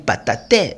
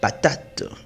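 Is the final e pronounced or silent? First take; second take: pronounced; silent. First: The final e is pronounced as a vowel. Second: The final e is silent. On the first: The speaker calls it wrong. "Je ne vais pas lire patate" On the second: The speaker calls it right. "Donc je lis patate"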